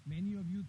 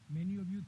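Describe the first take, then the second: No difference in how they are said.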